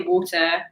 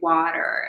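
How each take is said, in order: First: It is said in a British accent. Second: It is said in an American accent. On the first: Listeners in America do not understand it. "I say water" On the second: Listeners in America understand it. "So I have to say water, and then they understand me"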